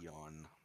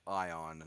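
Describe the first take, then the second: First: The name begins with an 'ee' sound. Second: The name begins with an 'eye' sound. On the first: The speaker calls it wrong. "not Eon" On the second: The speaker calls it right. "his name is Grand Karcist Ion"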